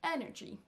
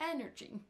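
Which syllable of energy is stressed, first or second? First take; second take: first; first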